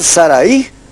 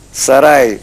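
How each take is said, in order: First: The final a and i are separate syllables. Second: The final a and i merge into one syllable. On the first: "para pronunciar Saraí hay que tildar la I" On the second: "se vuelve un diptongo"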